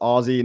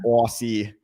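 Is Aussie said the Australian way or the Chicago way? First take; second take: Australian; Chicago. First: The word is said the Australian way. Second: The word is said the Chicago way. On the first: The speaker calls it right. "it's Aussie" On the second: The speaker calls it wrong. "saying Aussie like a freaking Chicagoan"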